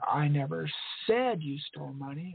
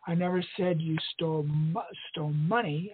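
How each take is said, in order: First: The stress is on "said". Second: The stress is on "stole".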